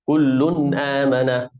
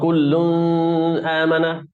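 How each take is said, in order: First: The n is said clearly without nasal hold. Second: The n is nasalized and held longer. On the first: The speaker calls it right. "except for the normal pronunciation" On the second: The speaker calls it wrong. "not kullun amana. Is this right? No, it's wrong"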